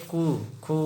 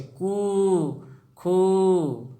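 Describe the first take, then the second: First: कु, खु each with a brief vowel; quick, unstretched oo on कु and खु; short u. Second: कु, खु with the vowel held long and higher; sustained, raised oo on कु and खु. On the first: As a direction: keep कु and खु short. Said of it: "छोटा ऊ से". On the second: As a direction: stretch कु and खु right out. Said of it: "ये है बड़ा ऊ का उच्चारण". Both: Shown as a demonstration.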